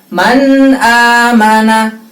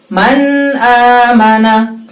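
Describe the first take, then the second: The two takes are said the same way.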